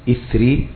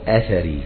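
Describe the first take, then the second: First: It starts with 'i', with no vowel after th. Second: It starts with 'a', with 'a' after th. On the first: "بكسر الهمزة وإسكان الثاء" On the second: "وبفتحهم"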